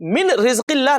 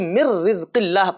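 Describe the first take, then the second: First: The n is clearly pronounced before the r. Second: The n merges into a doubled r. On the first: The speaker calls it wrong. "नहीं कहेंगे" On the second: The speaker calls it right. "बल्कि ... पढ़ेंगे"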